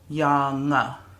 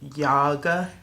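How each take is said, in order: First: The middle consonant is an ng sound. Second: The middle consonant is a hard g sound. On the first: The speaker calls it right. "it's pronounced as the, um, the sound that you would get from an English N G" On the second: The speaker calls it wrong. "It's not like a g"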